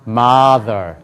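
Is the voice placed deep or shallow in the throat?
deep. The voice resonates from deep down low. The speaker calls it right.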